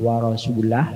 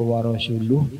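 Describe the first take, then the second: First: The word ends with an a vowel. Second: The word ends with a u vowel.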